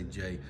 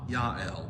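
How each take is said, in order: First: The name begins with a J sound. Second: The name begins with a Y sound. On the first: This matches how the name looks on the page. "we always say J" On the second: This follows the original Hebrew. "There's no J in either Hebrew or Greek, so it's Yah"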